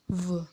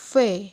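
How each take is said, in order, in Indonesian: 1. Konsonan ini diucapkan dengan getaran tenggorokan. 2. Konsonan ini diucapkan tanpa getaran tenggorokan. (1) "pengucapannya V dengan ada getaran dari area tenggorokan" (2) "Jadi bukan V ya"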